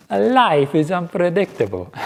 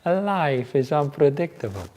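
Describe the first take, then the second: First: Mock Italian accent, pitched higher and slow. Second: A hint of Italian accent, slow; light Italian accent. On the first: Monk quoting his Italian housemate's catchphrase, playful Italian accent. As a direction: imitate an Italian ex-doctor in a warm Italian accent. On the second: Monk repeating the Italian man's catchphrase, lighter Italian accent. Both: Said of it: "said it with his Italian accent".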